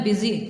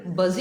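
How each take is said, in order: First: बिज़ी said as "bizzy", short i; correct pronunciation. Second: बज़ read as "buzz" from the letters; spelling-based misreading. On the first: Teacher modelling बिज़ी as bizzy for pupils. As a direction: say बिज़ी as bizzy, not buzz. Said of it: "इसको आपने बोलना है बिज़ी". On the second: Teacher shows the wrong letter-by-letter reading बज़. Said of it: "ये तो फिर बज़ ही पढ़ा जाएगा ना". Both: Shown as a demonstration.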